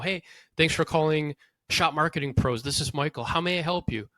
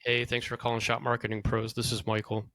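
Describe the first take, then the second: First: The tone is warm and friendly. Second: The tone is flat and miserable.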